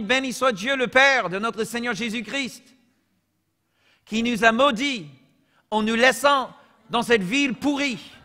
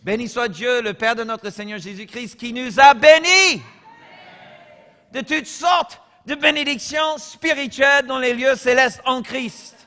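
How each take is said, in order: First: Joking fake scripture reading, a bit higher and louder; playful parody of the verse; mock misreading. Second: Preached reading, higher and louder, slowing and swelling on bénis; solemn fervent proclamation of the verse; true reading. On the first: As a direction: read a made-up cursed version with a straight face. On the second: Real, not acted. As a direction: proclaim the real verse with fervour. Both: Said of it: "là je lis de, de vrai, ok?".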